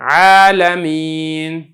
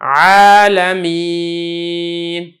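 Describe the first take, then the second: First: The final vowel is held only briefly. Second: The final vowel is held moderately long. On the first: "ज़्यादा इसको आप लंबा नहीं करेंगे" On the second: "कम से कम दो, ज़्यादा से ज़्यादा तीन"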